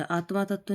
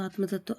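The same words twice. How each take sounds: First: आत्मा तत्व with long final 'aa' in आत्मा; mispronounced आत्मा तत्व. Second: Said in the usual way. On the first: Shown as a demonstration. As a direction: say आत्मा तत्व as AAT-maa tatv. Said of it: "नहीं होता". (आत्मा तत्व में 'मा' लंबा)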